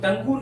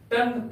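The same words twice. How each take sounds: First: टंगू with a voiced "oo" ending; wrong pronunciation. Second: टंग as a single syllable, tung; correct pronunciation. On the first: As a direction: say टंगू as tung-goo. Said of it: "टंगू नहीं पढ़ेंगे". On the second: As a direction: stop टंग at the ng, no vowel after it. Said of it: "टंग पढ़ेंगे". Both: Shown as a demonstration.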